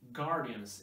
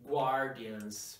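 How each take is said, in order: First: The g is followed directly by the vowel. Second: The g is followed by a w sound. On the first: The speaker calls it right. "remember not to pronounce the letter U like gua" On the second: The speaker calls it wrong. "Don't say Guardians. That's not correct"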